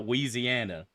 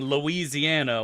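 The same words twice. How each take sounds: First: The name is said the local, slangy way. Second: The name is said the standard, full way. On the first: "slang it even harder" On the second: "calling Louisiana"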